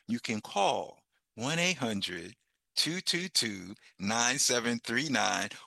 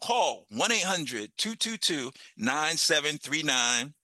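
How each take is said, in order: First: The number is said slowly and calmly. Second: The number is said fast and excitedly.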